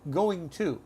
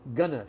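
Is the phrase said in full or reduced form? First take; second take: full; reduced. First: It is said fully as two separate words. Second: It is squeezed into a short reduced form. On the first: "instead of" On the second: "that fast way we speak"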